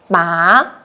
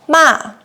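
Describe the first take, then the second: First: The pitch rises from mid to high. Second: The pitch falls sharply from high. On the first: "we use the second tone" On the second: "we use the fourth tone"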